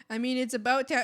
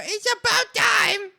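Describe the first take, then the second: First: Said in the usual way. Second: Loud, high, slower shout; slower, louder exclamation, high and emphatic. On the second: Real, not acted. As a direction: belt it out, about time. Repeats the phrase much louder.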